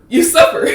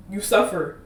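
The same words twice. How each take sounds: First: You suffer repeated much higher and louder with a laugh; emphatic. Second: Said in the usual way. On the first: Shown as a demonstration. Telling viewers Christians suffer, emphatic laughing repeat. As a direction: punch You suffer the second time, half laughing.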